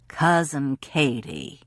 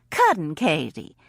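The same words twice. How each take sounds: First: Said in the usual way. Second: Put-on Alabama accent. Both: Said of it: "in Dick Hanna's Alabama accent".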